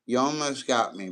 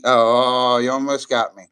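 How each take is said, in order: First: Said in the usual way. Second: Loud surprised laugh-shout; half-shouted, genuinely caught out; caught off guard. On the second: Real, not acted. Streamer caught by a viewer's trick, loud surprised outburst. Reacting to a clever troll.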